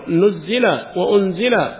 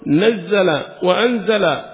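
First: Both words begin with an 'u' vowel. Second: Both words begin with an 'a' vowel. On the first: The sending down is stated without naming the sender. "بضم النون والألف" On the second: God is the one who sent it down. "بالفتح"

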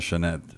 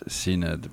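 First: The name is said in its Irish pronunciation. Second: The name is read letter by letter as written. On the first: The speaker calls it right. "pero se pronuncia Sinéad" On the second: The speaker calls it wrong. "se escribe Sinéad"

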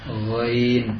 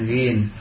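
First: The vowel glides from a to i. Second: The vowel is a plain short i. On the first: The speaker calls it right. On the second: The speaker calls it wrong.

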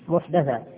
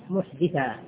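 First: The vowel after the d is a. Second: The vowel after the d is i. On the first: It refers to an innovation in religion. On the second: It refers to a person who commits a crime.

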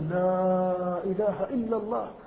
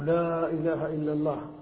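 First: The long vowels are stretched very long. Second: The long vowels are stretched moderately.

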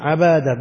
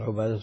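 First: The first vowel is a. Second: The first vowel is u. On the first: This is a rare form of the name. "بالفتح هذا نادر" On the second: This is the usual form of the name. "الأصل"

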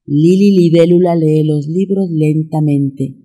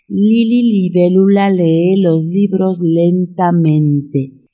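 First: It is said at a moderate pace. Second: It is said at a slow pace. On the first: "Ahora vamos a meterle un poquito de velocidad" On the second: "Una vez más"

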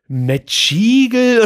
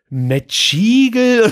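First: The word is pronounced like an Italian word. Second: The same.

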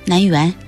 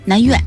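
First: The second syllable has a rising tone. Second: The second syllable has a falling tone. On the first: The speaker calls it wrong. "您说不念园" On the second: The speaker calls it right. "念院"

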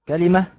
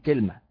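First: It is said kalima, with vowels a, i, a. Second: It is said kilma, with vowels i, a. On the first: This is the most eloquent form, used by the Hijaz. "على وزن نبقة وهي الفصحى" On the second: This is a second dialect form. "على وزن سدرة"

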